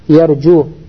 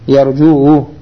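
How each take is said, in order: First: The final vowel is plain, with no added vowel. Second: The final vowel is drawn out with an added vowel. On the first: The speaker calls it right. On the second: The speaker calls it wrong.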